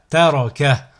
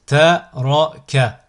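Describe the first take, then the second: First: Syllables joined as one word. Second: Slow, each syllable drawn out separately; split into syllables. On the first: Teacher models a word for learners to repeat, joined in one go. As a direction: run the syllables together without pauses. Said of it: "le mot attaché". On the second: Teacher models a word for learners to repeat, split into syllables. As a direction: cut the word up, pausing between syllables. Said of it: "décomposer le mot". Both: Shown as a demonstration.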